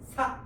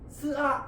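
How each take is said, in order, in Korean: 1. 자음과 모음이 합쳐져 한 음절이 돼요. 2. 자음과 모음은 따로 말해요. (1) "이렇게 읽어요" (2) "이렇게 안 읽잖아요"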